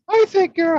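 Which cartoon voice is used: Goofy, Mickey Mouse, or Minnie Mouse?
Mickey Mouse. It is said in a high Mickey Mouse voice. "I want you to use the voice of Mickey Mouse"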